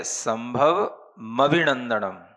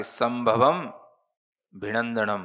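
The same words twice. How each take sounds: First: संभव मभिनंदनम, carrying the म over to मभिनंदनम; read as a compound. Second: संभवम भिनंदनम, with the म kept on संभवम; wrong split. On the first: Teacher showing the class the compound reading संभव मभिनंदनम, slow and deliberate. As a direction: slowly join संभव मभिनंदनम, the म starting the next word. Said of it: "अब इसको पढ़ना तो ऐसे है". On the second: Teacher showing the class the wrong split संभवम भिनंदनम. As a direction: break after संभवम, then भिनंदनम. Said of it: "ऐसे नहीं पढ़ना कि". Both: Shown as a demonstration.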